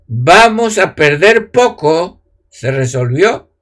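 The pause comes after the word 'poco'.

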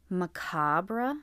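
The word is said the British English way. "That's apparently how British English speakers would say it"

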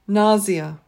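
The word is said with a British pronunciation. "This one is more British"

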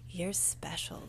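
It is said in a put-on sexy voice.

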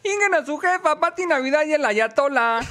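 It is read in a Tepito street accent.

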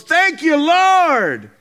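It is said loudly and excitedly.

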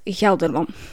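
The name is pronounced with Dutch sounds. "like I speak Dutch, and in my head when I read it, it's Gelderman"

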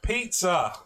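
It is said loudly with an English accent. "spoke really loudly in English"

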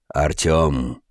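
The name is said in a put-on character voice.

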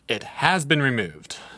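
It is said with cheerful enthusiasm.

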